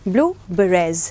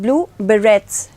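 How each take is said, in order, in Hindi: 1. Berets के अंत में कोई t ध्वनि नहीं है। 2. Berets के अंत में उच्चारित t और s है। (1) "बट इसका प्रोनाउंसिएशन है ब्लू बेरेज" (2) "तो उन्हें ब्लू बेरेट्स बेरेट्स तो बोलते हैं ऐसे B E R R E टी एस"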